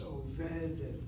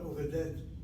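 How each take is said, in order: First: The stress is on the middle syllable. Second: The stress is on the last syllable. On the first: The speaker calls it right. "it's overdet" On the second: The speaker calls it wrong. "So the word is not overdet"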